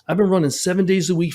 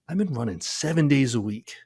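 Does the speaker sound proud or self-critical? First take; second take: proud; self-critical. First: It sounds proud and indignant, like a boast. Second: It sounds exasperated and self-critical, like an admission. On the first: The runner thinks the training should have kept them safe. "I can't believe I got hurt" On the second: The runner sees the training as the cause of the injury. "let's say that with a different tone"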